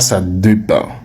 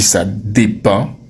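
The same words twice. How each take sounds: First: The first vowel of dépend is not a clear é. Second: The first vowel of dépend is a clear é. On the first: The speaker calls it wrong. "on ne dit pas ça dépend" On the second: The speaker calls it right. "On dit ça dépend. Et ce son, il reste bien éclairé"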